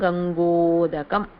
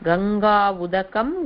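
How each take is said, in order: First: One merged word, the a and u become o. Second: Two separate words, long a then u.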